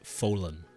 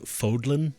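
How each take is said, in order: First: The D in the middle is silent. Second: The D in the middle is sounded. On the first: The speaker calls it right. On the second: The speaker calls it wrong.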